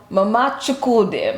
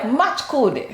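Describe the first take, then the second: First: "Mama Chukwude" with every syllable separate; full pronunciation. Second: "Machkude" squashed into one name, MATCH-koo-day; run-together pronunciation. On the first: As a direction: say "Mama Chukwude" in full, nothing run together. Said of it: "my dad would call my mom". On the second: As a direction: blur Mama Chukwude into "Machkude". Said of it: "really fast though, it sounded like". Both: Retold or imitated.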